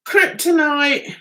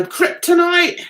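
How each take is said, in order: First: "Kryptonite" spelled out slowly; slow deliberate reading. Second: Said in the usual way. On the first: Shown as a demonstration. Reading the lock brand aloud, slow.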